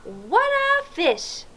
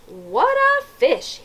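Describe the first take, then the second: First: Put-on slow, higher "What a fish" for children to copy; amazed exclaim demo. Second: Slow, higher amazed "What a fish"; drawn out in wonder; policeman's exclaim. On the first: Shown as a demonstration. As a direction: draw it out in wonder. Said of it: "Can you say that?". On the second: A narrator's reading. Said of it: "he said".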